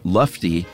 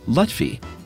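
First: The f sound comes before the t sound. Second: The t sound comes before the f sound. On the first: The speaker calls it wrong. "I think it said Lufty" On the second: The speaker calls it right. "but it's actually Lutfi"

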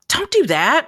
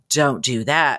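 First: It sounds relaxed and casual. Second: It sounds threatening and stern.

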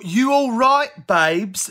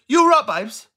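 First: It is said slowly, every word clear. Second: It is said quickly, words run together.

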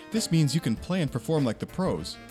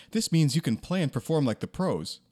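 The two takes are said the same way.

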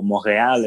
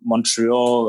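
First: It is pronounced the French way. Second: It is pronounced the English way.

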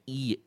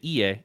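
First: It is said in a meek, submissive way. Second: It is said in a plain, neutral way.

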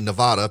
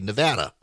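First: It uses the outsider pronunciation of the name. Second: It uses the local pronunciation of the name. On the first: The speaker calls it wrong. "people who are not from there say Nevada" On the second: The speaker calls it right. "people who are from there say Nevada"

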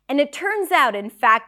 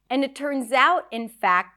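First: It is spoken at a normal pace. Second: It is spoken slowly.

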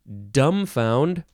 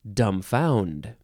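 First: The stress is on the first syllable. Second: The stress is on the second syllable. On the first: "You can emphasize either syllable" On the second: "You can emphasize either syllable"

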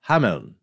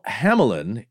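First: The name is said with two syllables, German-style. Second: The name is said with three syllables, English-style. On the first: "In German, I'm going to do my best here, is Hameln, with a soft N" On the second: "Hamelin is the English variation"

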